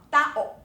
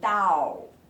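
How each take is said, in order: First: A glottal catch splits the vowels into two syllables. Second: The vowels run together into one syllable. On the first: The speaker calls it right. "是 tao" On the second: The speaker calls it wrong. "而不会念成 dao，它就不对了"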